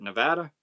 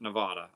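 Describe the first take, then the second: First: Short "vad" in Nevada. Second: Broad "vah" in Nevada. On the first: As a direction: middle a of Nevada as in "cat". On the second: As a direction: middle a of Nevada opened to "ah". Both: Shown as a demonstration. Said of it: "I've heard people pronounce it both ways".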